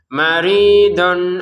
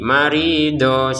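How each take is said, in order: First: It ends with an n sound before the next word. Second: It ends on a vowel with no n sound. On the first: The reader continues without pausing. "Kalau disambung ke hamzanya maka kembali menjadi tanwin" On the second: The reader pauses here. "Maridon kita baca marido ... karena kita berhenti"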